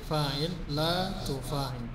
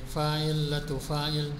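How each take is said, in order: First: The vowel of la is lengthened. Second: The vowel of la is short. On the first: The speaker calls it right. "nanti di fi'il nahinya agak dipanjangkan la tufa'il" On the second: The speaker calls it wrong.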